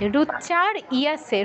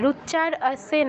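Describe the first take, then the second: First: A clear 'ya' sound comes before 'se'. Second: No 'ya' sound comes before 'se'. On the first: The speaker calls it right. "ইয়া ইয়া" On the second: The speaker calls it wrong. "রুচ্চার আসে নয়"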